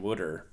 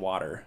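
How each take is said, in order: First: The word sounds like 'wooder' with a d sound. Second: The word is said in a standard way. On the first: "everyone said ... Wooder" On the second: "instead of ... Water"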